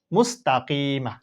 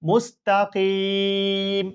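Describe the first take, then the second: First: মুস্তাকিমা read slowly with the final a; drawn-out মুস্তাকিমা, vowel kept; slow blended reading. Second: মুস্তাকিম drawn out, the final m closed with no vowel; pausal stop. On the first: Teacher blends মুস্তাকিমা before showing the stop. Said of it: "letters blended into the word". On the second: Teacher models the waqf on মুস্তাকিম slowly. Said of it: "এভাবে পড়তে হবে". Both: Shown as a demonstration.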